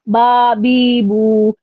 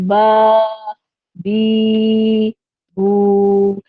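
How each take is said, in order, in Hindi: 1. अक्षर जल्दी-जल्दी और हड़बड़ी में पढ़े जाते हैं। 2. अक्षर बिना जल्दी के, आराम और रवानी से पढ़े जाते हैं। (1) "आपने इस तरह से नहीं पढ़ना" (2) "रवानी में आप पढ़ेंगे ना, तो फिर आपने पढ़ना है"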